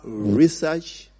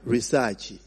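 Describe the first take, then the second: First: Research drawn out slowly; "research" as ri-sahch, stretched; accent variant. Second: Research slow and lower, ending ri-sah-chi; "research" as ri-SAA-chi; accent variant. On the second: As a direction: draw out RESEARCH with a small -i at the end. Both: Shown as a demonstration. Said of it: "It is just different accents".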